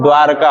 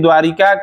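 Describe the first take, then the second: First: No vowel is heard between 'dwar' and 'ka'. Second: An 'i' vowel is heard after 'dwar'. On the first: The speaker calls it right. "द्वारका होता है" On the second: The speaker calls it wrong. "कुछ लोग कहते हैं कि द्वारिका"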